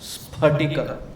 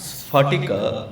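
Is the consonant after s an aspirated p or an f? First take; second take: aspirated p; f. First: The consonant after s is an aspirated p. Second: The consonant after s is an f sound. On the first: The speaker calls it right. "it is sphatika" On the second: The speaker calls it wrong. "there is no syllable which pronounces as fa. It is not sphatika"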